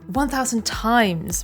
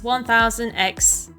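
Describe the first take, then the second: First: The symbol is read as the word times. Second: The symbol is read as the letter X. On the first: The speaker calls it right. "it has been confirmed it's one thousand times resist" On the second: The speaker calls it wrong. "I've been mispronouncing it as X resist"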